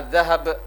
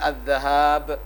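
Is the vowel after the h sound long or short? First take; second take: short; long. First: The vowel after the h is short. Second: The vowel after the h is long. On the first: It means gold. "hak yang pendek" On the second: It means going. "hak yang panjang"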